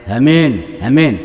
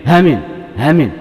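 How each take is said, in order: Both takes have the same delivery.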